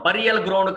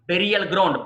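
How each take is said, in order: First: బరియల్ said "BURR-ee-al"; mistaken pronunciation. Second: బెరియల్ said "BERR-ee-al"; correct pronunciation. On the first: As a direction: open బరియల్ with "buh". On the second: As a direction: open బెరియల్ with "beh". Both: Shown as a demonstration. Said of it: "బరియల్ ground కాదండి".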